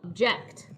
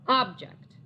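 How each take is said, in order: First: The stress is on the second syllable. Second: The stress is on the first syllable. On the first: It means to disagree. "what if I were to place the stress on the second syllable of the word?" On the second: It names a thing. "let's stress the first syllable of our two"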